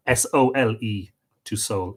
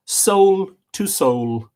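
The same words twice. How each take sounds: First: S O L E spelt out letter by letter, then soul; spelling soul. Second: Soul drawn out slowly and high; soul to soul, lingered over. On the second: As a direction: stretch each soul long and high. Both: Shown as a demonstration.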